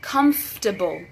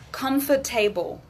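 First: The ending is reduced to a weak 'ible' sound. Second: The ending is said fully, like the word table. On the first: The speaker calls it right. "Now it's able" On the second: The speaker calls it wrong. "So I don't want to hear comfortable. Mm-mm. There's no table anymore"

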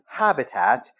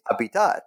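First: It is said with a plain English accent. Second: It is said with a French accent. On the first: It is the ordinary English word. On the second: It is a theory term with another meaning.

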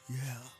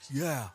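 First: It sounds gloomy and depressed, like emo. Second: It sounds fairly neutral, not especially sad.

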